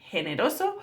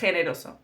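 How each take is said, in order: First: The g is a soft, breathy h sound. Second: The g is a harsh sound from the throat. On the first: This is how it is said in the south. "in southern Spain it would be generoso, like an H" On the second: This is how it is said in the north. "Here in northern Spain"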